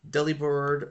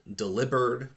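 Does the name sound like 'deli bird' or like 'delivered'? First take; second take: deli bird; delivered. First: The name does not sound like 'delivered'. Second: The name sounds like the word 'delivered'.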